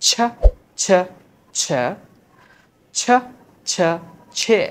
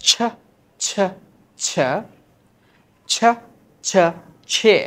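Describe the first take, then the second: No difference in how they are said.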